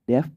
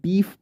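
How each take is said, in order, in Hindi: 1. स्वर छोटी 'eh' ध्वनि है। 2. स्वर लंबी 'ee' ध्वनि है। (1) "नहीं डेफ पढ़ेंगे आप इसको" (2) "अक्सर इसको लोग डीफ पढ़ते हैं"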